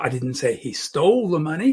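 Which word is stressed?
stole. The word "stole" carries the emphasis. He took it some other way. "He borrowed it"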